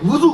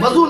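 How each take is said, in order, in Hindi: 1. पहला स्वर 'u' की ध्वनि है। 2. पहला स्वर 'a' की ध्वनि है। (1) "वाव पे ज़म्मा लगाइए" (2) "वज़ू ना कहा कीजिए"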